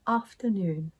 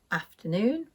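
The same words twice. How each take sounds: First: "afternoon" starting with long "ahf"; southern long A. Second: "Afternoon" starting with short a as in cat; Northern short A. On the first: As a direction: say "afternoon" the RP way, ah as in father. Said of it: "In the south of England". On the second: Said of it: "I pronounce these words with an A sound". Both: Shown as a demonstration.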